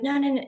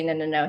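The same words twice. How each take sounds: First: Mock sleepy refusal. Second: Said in the usual way. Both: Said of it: "he didn't say".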